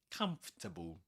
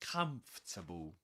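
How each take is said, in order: First: The word is said in three syllables. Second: The word is said in three syllables.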